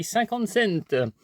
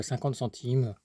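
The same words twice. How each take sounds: First: Cinquante cents, with "cents" said /sɛnt/ the English way, slow and high. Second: Said in the usual way. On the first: Pretend. Vlogger jokes about a CD's price, saying cinquante cents slowly like [name]. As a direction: draw out cinquante cents like the rapper's name, slow and higher.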